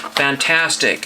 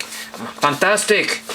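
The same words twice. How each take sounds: First: Said in the usual way. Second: Drawn-out, higher playful "fantastic"; mock-grand exclamation, slow and higher; playful put-on voice. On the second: Repeats the word in put-on voice.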